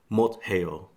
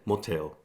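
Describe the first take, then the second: First: The two syllables are kept separate. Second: The two syllables merge into one sound. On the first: The speaker calls it wrong. "They won't say motel" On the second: The speaker calls it right. "they will say motel. They combine them together"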